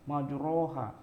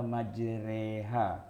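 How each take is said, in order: First: The second vowel is an open a sound. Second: The second vowel is tilted toward e. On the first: This follows the written spelling. The speaker calls it wrong. "Iya tulisannya, tapi bacanya bukan" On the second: This is the imalah reading. The speaker calls it right. "bacanya majreha"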